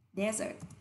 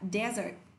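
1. Trọng âm rơi vào âm tiết thứ nhất. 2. Trọng âm rơi vào âm tiết thứ nhất.

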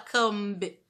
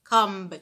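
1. Um som de B é pronunciado no final. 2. A palavra termina em M, sem B. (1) "Não fala come" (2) "Esse B você não fala"

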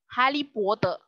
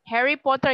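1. Diucapkan dengan aksen gaya Mandarin. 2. Diucapkan dengan aksen Inggris standar. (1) "Kalian harusnya ngomong gini" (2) "mereka nggak bakal tahu"

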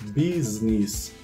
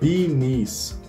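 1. Ouve-se um som de s entre as duas palavras. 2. As duas palavras se juntam sem som de s. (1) "ele deve ser pronunciado com esse S" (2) "Já falei errado"

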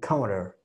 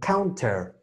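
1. La consonante del medio es un toque suave, parecido a una R. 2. La consonante del medio es una T fuerte y clara. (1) "cuando están hablando normal, dicen counter" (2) "Cuando lo dicen fuerte, sí dicen counter"

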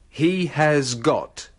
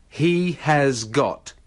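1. Setiap kata diucapkan perlahan dan penuh. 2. Setiap kata diucapkan perlahan dan penuh.

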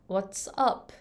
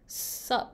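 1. 全部言うときは、両方の単語を言う。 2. 最初の単語が落ちて、「sup」だけになる。

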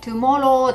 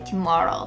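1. 日本語のカタカナ風の音で言われています。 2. 自然な英語の音で言われています。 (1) "Tomorrow でなくて" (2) "Tomorrow って言えた方がいいかな"

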